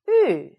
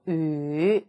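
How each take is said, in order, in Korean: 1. 음높이가 날카롭고 빠르게 떨어집니다. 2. 음높이가 낮게 가라앉습니다. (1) "사성" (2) "삼성"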